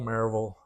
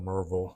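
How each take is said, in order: First: The name is said the way outsiders say it. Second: The name is said the way locals say it.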